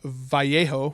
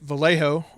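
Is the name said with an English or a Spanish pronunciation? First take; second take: Spanish; English. First: The name is said with a Spanish pronunciation. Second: The name is said with an English pronunciation.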